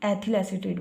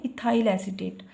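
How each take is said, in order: First: एथिल एसीटेट with a short e-thil, Hindi style; एथिल एसीटेट in the Hindi reading. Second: इथाइल एसीटेट with the English vowel sounds, i-THAI-l; इथाइल एसीटेट read the English way; English name. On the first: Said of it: "Hindi में एथिल एसीटेट बोल देंगे". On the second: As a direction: say इथाइल as ee-thaa-il, then एसीटेट. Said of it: "इसको बोलते हैं इथाइल एसीटेट". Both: Shown as a demonstration.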